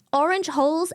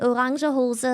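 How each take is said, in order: First: Orange hose with OR-inj and one-syllable hose; English pronunciation. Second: Orange hose as o-RAHN-zhuh HO-zuh; German pronunciation. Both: Shown as a demonstration. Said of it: "They're not interchangeable".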